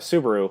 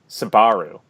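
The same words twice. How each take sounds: First: It is said like the usual car brand name. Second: It is said almost like the word Sbarro. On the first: The speaker calls it right. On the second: The speaker calls it wrong.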